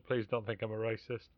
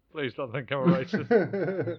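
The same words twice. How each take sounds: First: Said in the usual way. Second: Louder, slower, laughing through it; laughing, drawn-out panicky plea. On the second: Retold or imitated. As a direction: crack up while pleading the line again. Anxious inner thought, repeated.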